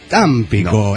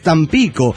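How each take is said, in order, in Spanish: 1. El acento no está en la sílaba del medio. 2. El acento está en la sílaba del medio. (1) "Porque no es Tampico" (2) "no lleva tilde, por lo tanto se acentúa en la I, entonces es Tampico"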